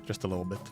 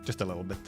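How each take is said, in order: The two takes are said the same way.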